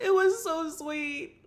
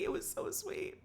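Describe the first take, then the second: First: Gushing. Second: High, whispered gush; swooning whisper. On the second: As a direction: whisper it, melting. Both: Real, not acted.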